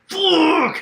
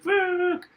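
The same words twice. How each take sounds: First: It is shouted in his own angry voice. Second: It is said in a cute female voice.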